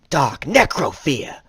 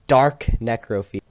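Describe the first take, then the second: First: It is said in an imitated Bakura voice. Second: It is said in his own natural voice.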